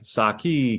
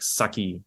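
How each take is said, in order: First: The word has a drawn-out English rhythm. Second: The word has a short, quick Japanese rhythm. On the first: The speaker calls it wrong. "in English we're like saki because we like the rhythm" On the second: The speaker calls it right. "It's more like it's more like saki"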